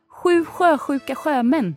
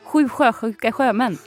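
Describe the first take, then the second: First: It is said at a normal speed. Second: It is said really fast.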